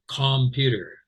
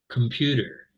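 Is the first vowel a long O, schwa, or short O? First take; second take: short O; schwa. First: The first vowel is a short O sound. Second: The first vowel is a reduced schwa sound. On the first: "did I say a short O?" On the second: "I said computer"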